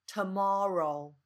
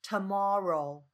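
No difference in how they are said.

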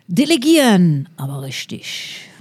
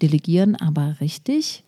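First: It is said with a regional accent. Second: It is said in standard German.

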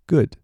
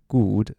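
First: The vowel is a short, punched sound. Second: The vowel is a long oo sound. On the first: The speaker calls it right. "它是你就想肚子有点像被捶" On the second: The speaker calls it wrong. "注意不要念成good"

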